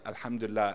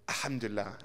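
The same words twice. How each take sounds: First: It sounds grudging and half-hearted. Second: It sounds genuinely content and upbeat. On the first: Things could be better. The speaker calls it wrong. "everything could be better" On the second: Things are truly good. The speaker calls it right. "How are you feeling?"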